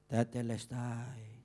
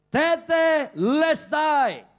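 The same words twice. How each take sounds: First: It is said weakly, in a defeated tone. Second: It is shouted loudly, in a triumphant tone. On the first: The speaker has lost and given up. "nada orang kalah tuh kira-kira bunyinya gini nih" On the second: The speaker has won and finished the task. "berteriak dengan nyaring ... teriakan orang yang menang"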